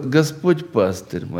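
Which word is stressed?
пастырь. The word пастырь carries the main stress. It answers what the Lord is to the speaker. "Второе – «Господь, кто для тебя?» – «Пастырь»"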